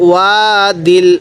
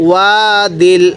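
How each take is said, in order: Both takes have the same delivery.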